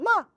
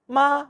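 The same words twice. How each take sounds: First: It is said with a sharply falling pitch. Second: It is said with a high level pitch. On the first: "Les quatre tons" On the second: "Les quatre tons"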